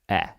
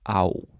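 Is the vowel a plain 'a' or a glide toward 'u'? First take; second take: plain; glide. First: It is a plain 'a' vowel. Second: The vowel glides from 'a' toward 'u'. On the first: It is the word standing alone. "as a word alone, then it's a" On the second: It is a prefix on another word. "when it's a prefix, then it's au"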